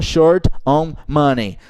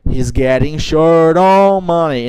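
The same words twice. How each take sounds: First: "short on money" word by word; teacher shows the separated wrong form. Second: "short on money" joined as one; teacher models linked English; linked, slow. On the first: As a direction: break the words apart, the wrong way. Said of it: "e não". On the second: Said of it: "e não short on money". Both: Shown as a demonstration.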